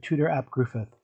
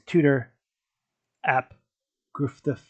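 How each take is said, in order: First: The last name sounds like griffith. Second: The last name sounds like gruff-duff. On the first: The speaker calls it right. "G R U F F U D D is pronounced Griffith" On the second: The speaker calls it wrong. "I can't pronounce the last name"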